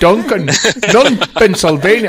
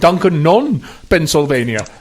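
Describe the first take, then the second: First: It is said in a put-on Scottish accent. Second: It is said in a plain, everyday accent.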